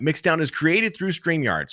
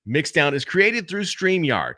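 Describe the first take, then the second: First: Slow promo read of the tagline; match the inflection of the recorded take; voiceover read. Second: Matched announcer read, slow; slow promo read of the tagline; voiceover read. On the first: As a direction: ad copy read, even and slow. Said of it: "So I just kinda remember that". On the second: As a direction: read it like ad copy, matching the take before. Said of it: "I match myself with the inflection point". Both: Shown as a demonstration.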